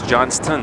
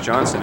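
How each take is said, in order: First: The name is said with a 't' sound. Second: The name is said without a 't' sound. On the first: The speaker calls it right. "It's Johnston" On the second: The speaker calls it wrong. "I think I pronounced that Johnson"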